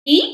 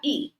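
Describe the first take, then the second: First: Short i. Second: ई held twice as long; stretched long vowel ई. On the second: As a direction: draw out ई to double length. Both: Shown as a demonstration. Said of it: "दुगना समय यहाँ लग गया".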